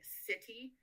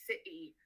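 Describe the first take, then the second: First: The middle T is clearly pronounced. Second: The middle T becomes a glottal stop. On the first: "pronounced with the T in English" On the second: "almost like a Cockney English, and that would be a glottal stop"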